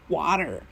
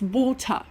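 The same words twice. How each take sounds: First: Said in an American accent. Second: Said in a British accent. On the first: The speaker calls it wrong. "it's not water" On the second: The speaker calls it right. "It's water. Say it right"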